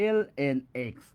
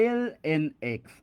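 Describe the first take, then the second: No difference in how they are said.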